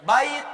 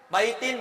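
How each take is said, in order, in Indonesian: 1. Kata ini berakhir dengan bunyi t biasa. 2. Kata ini berakhir dengan tambahan bunyi -in. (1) "matikan aja ujungnya, nggak usah pakai an in un"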